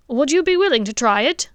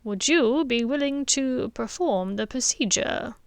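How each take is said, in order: First: Higher, louder hopeful question; father asks the headmaster to let him try; eager dentist asks. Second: Put-on old headmaster asks. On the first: Acted. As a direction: lean in and ask hopefully. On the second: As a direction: turn the question back gently. Dumbledore answers softly.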